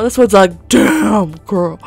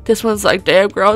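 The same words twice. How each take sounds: First: "Damn" stretched long and punched louder; stress on Damn. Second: Said in the usual way. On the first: Acted. Gamer admiring a car, "Damn" drawn out. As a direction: draw out "Damn" with admiring force.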